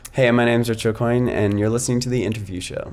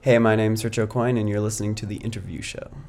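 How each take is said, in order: First: It is said with lively, enjoying energy. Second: It is said with low energy.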